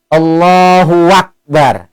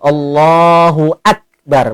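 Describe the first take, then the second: First: A 'w' sound links 'hu' and 'akbar'. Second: A firm glottal stop begins 'akbar'. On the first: The speaker calls it wrong. "Atau nambah huruf waw baris atas" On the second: The speaker calls it right. "Maka harus tegas huruf hamzahnya itu"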